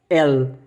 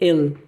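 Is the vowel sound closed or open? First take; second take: open; closed. First: The vowel is pronounced open. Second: The vowel is pronounced closed. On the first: "no alemão é aberto" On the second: "aqui você pronuncia mais fechado"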